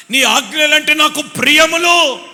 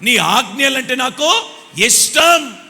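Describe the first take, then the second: First: Louder, higher repeat; louder, higher psalmist cry; rising fervor. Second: Slow, deliberate declaration; slow psalmist devotion; slow fervent quote. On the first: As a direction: lift the same line up with passion. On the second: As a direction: lay out each word slowly. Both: Acted. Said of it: "అని అంటున్నాడు".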